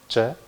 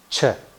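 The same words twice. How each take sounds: First: The ch is released without a burst of air. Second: The ch is released with a burst of air. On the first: "Ч без взрыва" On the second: "Ч взрывная"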